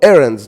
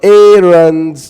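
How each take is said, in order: First: The word is said quickly. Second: The word is said slowly. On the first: The speaker calls it right. "like this fast" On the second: The speaker calls it wrong. "Not errands"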